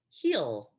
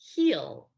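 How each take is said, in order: First: It is said as one contracted syllable. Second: The same.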